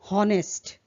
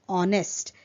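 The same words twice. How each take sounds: First: The word begins with an h sound. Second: The word begins without an h sound. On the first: The speaker calls it wrong. "wrongly pronounced as honest" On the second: The speaker calls it right. "but it is honest. H is silent"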